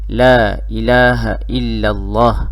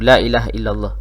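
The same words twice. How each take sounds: First: The phrase is said slowly and gently. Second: The phrase is said quickly and hurriedly. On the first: The listener can follow along. The speaker calls it right. "Ucapkan dalam keadaan yang perlahan-lahan supaya dia boleh ikut" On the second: The listener finds it hard to follow. The speaker calls it wrong. "jangan sebut laju-laju"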